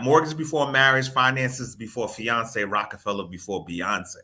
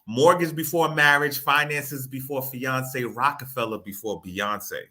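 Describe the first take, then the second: First: It is said at normal speed. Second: It is said more slowly.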